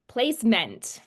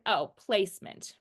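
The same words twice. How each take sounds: First: Placement joined up but with a full "MENT"; unnatural phonetic reading. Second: "Oh, placement" with a reduced "mint" ending; easy natural pronunciation. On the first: Shown as a demonstration. Student reading by phonics, placement as an unnatural "place-ment". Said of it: "that doesn't sound natural". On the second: Acted. Students recognizing the word, placement in its natural "place-mint" form. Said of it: "it's easier to say".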